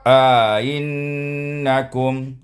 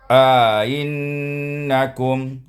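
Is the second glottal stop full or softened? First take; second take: softened; softened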